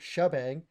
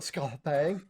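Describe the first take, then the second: First: The name begins with a 'sh' sound. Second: The name begins with an 'sk' sound. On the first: The speaker calls it right. "instead of saying it shabang" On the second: The speaker calls it wrong. "they go skabang, and they try to say the S C and H all together"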